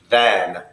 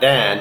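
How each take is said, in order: First: The word begins with a th sound. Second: The word begins with a d sound. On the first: The speaker calls it right. "it's than" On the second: The speaker calls it wrong. "It's not dan"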